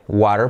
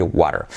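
First: "water" with a clearly sounded T; crisp-T water. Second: "water" with the T as a soft R tap. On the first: Teacher showing you can also say water, with a hard T. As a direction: say "water" with a true T, not a tap. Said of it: "puedes decir water". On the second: Teacher showing the more usual way of saying water, soft tapped T. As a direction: tap the middle of "water" lightly. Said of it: "más habitual es decir water". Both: Shown as a demonstration.

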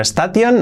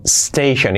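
First: "station" as es-ta-TION; higher, hard t in "station"; wrong Spanish reading. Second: "station" as STEI-shen; falling "station" with sh; correct pronunciation. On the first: Teacher rejects old version: "station" as es-ta-tion. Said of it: "Ya no station". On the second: Teacher gives correction: "station" as STEI-shen. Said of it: "no, station". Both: Shown as a demonstration.

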